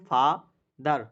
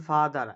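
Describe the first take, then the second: First: ফাদার broken in two, ফা, then দার; split into syllables. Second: Said in the usual way. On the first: Shown as a demonstration. Teacher showing students the two syllables, ফাদার split apart. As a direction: say ফাদার slowly as two separate beats. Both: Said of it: "দুইবারে উচ্চারণ করতেছি".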